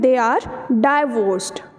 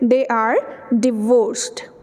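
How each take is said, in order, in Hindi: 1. पहला अक्षर 'die' जैसा सुनाई देता है। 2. पहला अक्षर 'dih' जैसा सुनाई देता है। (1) "गलत बोलते हैं" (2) "the actual and the right"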